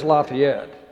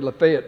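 First: The name is said the way Indiana locals say it. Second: The name is said the way Georgians say it. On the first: This is how the Indiana town is named. "But it really is Lafayette" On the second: This is how the Georgia town is named. "if I was in Georgia, it would be Lafayette"

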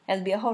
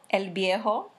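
First: The phrase is said quickly. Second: The phrase is said slowly.

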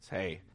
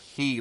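First: The vowel sounds like the English word 'hay'. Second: The vowel sounds like the English word 'he'. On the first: The speaker calls it right. "but it's Hey" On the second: The speaker calls it wrong. "it probably looks like he, like the English pronoun he to you"

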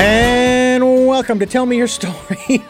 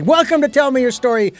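First: The words are drawn out and elongated. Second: The words are said at a normal length.

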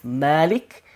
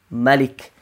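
First: The first vowel is drawn out long. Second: The first vowel is kept short. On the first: It means the owner. "the one has an alif after the meme" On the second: It means the king. "The other one has no alif"

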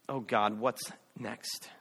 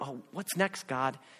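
First: It sounds fearful and terrified. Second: It sounds eager and excited.

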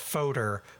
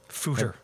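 First: The first vowel sounds like in 'odd'. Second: The first vowel sounds like in 'hoot'. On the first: The speaker calls it wrong. "I know it's not pronounced fodder, but that's how I always say it" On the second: The speaker calls it right. "it rhymes with hooter"

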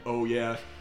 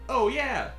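First: It is said flatly, with no inflection. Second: It is said with lively, expressive energy. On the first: The character sounds robotic. "He wasn't like" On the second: The character does not sound robotic. "he's still being like"

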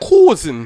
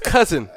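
First: The word is said with a Jamaican pronunciation. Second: The word is said with an American pronunciation. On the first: The speaker calls it wrong. "Not cousin" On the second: The speaker calls it right. "no, it's cousin"

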